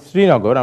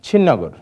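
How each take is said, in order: First: It is said in the standard Bengali form. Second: It is said in the local dialect form. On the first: "আমার বাড়ি শ্রীনগর আমরা বলি" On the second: "কিন্তু আমরা কিন্তু বলি"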